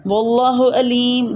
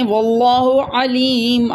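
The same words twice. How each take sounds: First: علیم said with a plain glottal hamza, no ain. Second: علیم said with a clear throaty ain. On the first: Teacher demonstrating the student's wrong reading, slow. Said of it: "لیکن آپ نے پڑھ دیا حمزہ سے". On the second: Teacher showing the right reading with ain, slow. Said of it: "پڑھنا تھا آپ نے واللہ علیم عین سے". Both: Shown as a demonstration.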